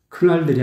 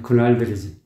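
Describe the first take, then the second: First: The first consonant is hard and forceful. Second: The first consonant is soft and light. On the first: The speaker calls it wrong. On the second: The speaker calls it right.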